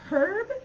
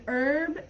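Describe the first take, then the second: First: "herb" with an audible H, British style; "herb" opening on a breathed H; pronounced H. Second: "herb" said as "erb", American style; "herb" opening straight on the vowel; silent H. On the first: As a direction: sound the H at the start of "herb". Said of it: "in British English they would say". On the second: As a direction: drop the H at the start of "herb". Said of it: "the H isn't pronounced in American English". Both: Shown as a demonstration.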